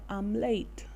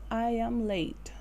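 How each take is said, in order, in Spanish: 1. I y am se unen en una sílaba contraída. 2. I y am se dicen como palabras separadas. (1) "También lo podemos contraer lo positivo de esta forma y sonaría"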